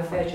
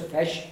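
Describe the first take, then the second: First: "fish" said like "faysh", vowel held long; long-e wrong version of "fish"; mistaken long vowel. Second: "fish" said like "fesh", vowel kept short; a brief e sound in "fish"; short-e model of "fish"; correct short vowel. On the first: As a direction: stretch the e sound in "fish". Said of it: "you also hear people saying fish". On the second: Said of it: "It's not a fish". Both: Shown as a demonstration.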